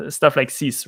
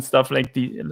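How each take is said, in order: First: "this" said as "sis"; Austrian-accented "this", starting with S. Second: Said in the usual way. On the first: Shown as a demonstration. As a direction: swap the th in "this" for an S. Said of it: "they always use the S for th". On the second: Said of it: "this is actually the original Austrian accent".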